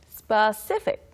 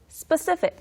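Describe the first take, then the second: First: The word is said at a normal speed. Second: The word is said at a faster speed.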